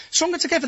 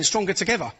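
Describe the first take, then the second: First: Stronger together thrown back high and mocking, Stronger pitched up; scornful echo. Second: Said in the usual way. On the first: Mocking the police slogan to the host, scornful and high. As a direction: sneer the slogan back, Stronger jumping higher. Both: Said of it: "holding a sign saying".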